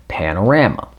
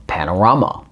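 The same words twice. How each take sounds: First: "panorama" with a short a as in "ram"; "panorama", stressed flat-A third syllable. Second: "panorama" with an open ah in the third syllable; "panorama", stressed broad "rah". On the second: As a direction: say "panorama" as pan-uh-RAH-muh. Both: Shown as a demonstration. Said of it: "however you pronounce it".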